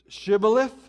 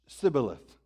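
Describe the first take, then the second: First: The word begins with a 'sh' sound. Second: The word begins with an 's' sound. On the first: It is the way the Gileadites said it. "the foreigners had pronounced this city as Shibboleth" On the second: It is the way the Ephraimites said it. "they hadn't picked that pronunciation of the word up"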